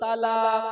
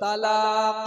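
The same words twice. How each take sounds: The two takes are said the same way.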